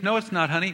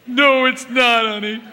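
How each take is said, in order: First: Kind reassurance. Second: High, loud, snide mock reassurance; snide husband faking comfort with a loud high sneer. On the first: Retold or imitated. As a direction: reassure her gently. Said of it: "full of goodwill". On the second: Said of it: "his tone of voice".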